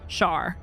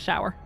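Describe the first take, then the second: First: The vowel sounds like 'ah'. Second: The vowel sounds like 'ow'. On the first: It is the speaker's Northern Irish way. "O Ws are not pronounced like that. They're pronounced like ah" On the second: It is the standard way. "instead of"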